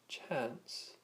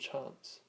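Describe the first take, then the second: First: It is said in a Northern English-style accent. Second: It is said in a general British-style accent. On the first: "many from Northern England, Ireland, and Australia probably would say chance" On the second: "rather than chance"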